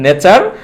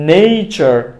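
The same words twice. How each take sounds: First: It uses the common local mispronunciation. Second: It uses the standard English pronunciation. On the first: The speaker calls it wrong. "ভুল উচ্চারণটা হচ্ছে" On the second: The speaker calls it right. "সঠিক উচ্চারণটা হচ্ছে"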